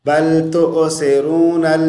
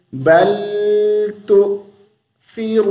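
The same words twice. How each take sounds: First: बल तुसिरूनल spoken as tu-o-se-roonal, no catch; wrong run-on reading. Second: बल तुसिरूनल with a brief catch after tu, th for स; correct hamza stop. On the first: Teacher shows the mistake, तुसिरूनल run on in talking voice. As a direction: say तुसिरूनल loosely with s and e vowel. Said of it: "नहीं पढ़ना". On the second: Teacher models the pause for students, तुसिरूनल chanted with a catch. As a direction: chant तुसिरूनल higher, jolt on hamza, long oo. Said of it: "थोड़ी देर के लिए रुक जाएंगे". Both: Shown as a demonstration.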